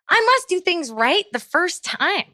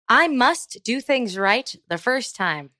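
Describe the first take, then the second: First: It is said with lively, varied inflection. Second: It is said flatly, like a robot.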